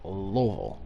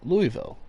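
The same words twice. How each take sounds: First: The city name is said the local way. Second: The city name is said the outsider way. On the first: The speaker lives in the city. "if you talk to a Louisville, Kentucky resident, they say it's" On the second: The speaker is not from the city. "people outside of Louisville, Kentucky can uh, pronounce it"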